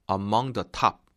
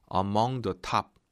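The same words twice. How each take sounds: The two takes are said the same way.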